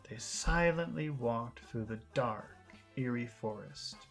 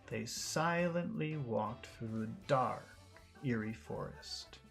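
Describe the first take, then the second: The two takes are said the same way.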